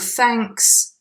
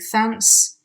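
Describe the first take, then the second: First: It is said carefully with the k sound. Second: It is said quickly with a t sound.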